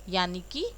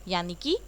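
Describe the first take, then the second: Both takes have the same delivery.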